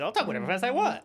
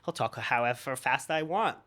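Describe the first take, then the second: First: It is said sped up, faster. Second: It is said at a normal pace.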